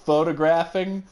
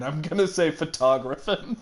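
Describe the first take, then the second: First: Said in the usual way. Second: "photographing" as fuh-TAH-graphin; Southern photographing. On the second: Shown as a demonstration. Player showing Lotta's word, "photographing" as fuh-TAH-graphin. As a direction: stress the second syllable and drop the g in "photographing".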